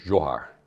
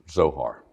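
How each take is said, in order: First: The name has a Hungarian pronunciation. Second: The name has an American pronunciation. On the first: This is the family's original form of the name. "originally pronounced Zohar, which is a Hungarian pronunciation" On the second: This form is easier for Americans to say. "we have Americanized it"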